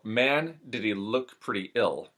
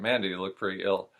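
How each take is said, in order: First: The L sounds are pushed and exaggerated. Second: The L sounds are said plainly and casually. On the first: "Push the L just a little bit more than a general American" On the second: "the way I would casually speak it"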